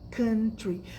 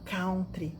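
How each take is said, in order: First: The first syllable sounds like cun. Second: The first syllable sounds like cow. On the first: The speaker calls it right. "Existe country" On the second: The speaker calls it wrong. "A palavra country não existe"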